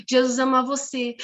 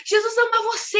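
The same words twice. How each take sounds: First: Said in the usual way. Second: Put-on high, excited child's call; imitated street shouting. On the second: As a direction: call out joyfully like a girl in the street. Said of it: "começou a gritar na rua".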